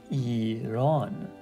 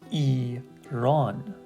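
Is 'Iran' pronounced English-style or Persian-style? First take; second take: Persian-style; Persian-style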